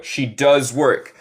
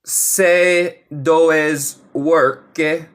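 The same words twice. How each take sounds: First: Slow, careful she does work with a clear English does; correct pronunciation. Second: Se does work, very slow, se said like Spanish se instead of she; wrong pronunciation. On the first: Teacher to students: slow, careful correct she does work. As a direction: model the right way, slowly. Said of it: "aquí tenemos lo correcto". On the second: Teacher shows learners the wrong way: slow, mispronounced se does work. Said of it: "si pronuncia como". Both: Shown as a demonstration.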